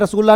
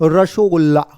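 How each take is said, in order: First: It is said without a vowel after 'ras'. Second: It is said with an 'o' after 'ras'. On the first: This is not how it is said in Bengal. The speaker calls it wrong. "रसगुल्ला नहीं" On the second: This is how people in Bengal say it. The speaker calls it right. "रसोगुल्ला इसे बोलते हैं बंगाल में"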